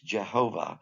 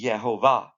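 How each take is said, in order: First: The name begins with a J sound. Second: The name begins with a Y sound. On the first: "a close uh, way to pronounce this in English" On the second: "if you just make the J a yay, the Y sound"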